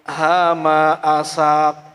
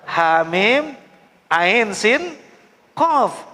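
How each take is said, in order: First: The letters are run together as short syllables. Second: Each letter is read by its full name. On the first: The speaker calls it wrong. "Kok hama asak?" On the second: The speaker calls it right.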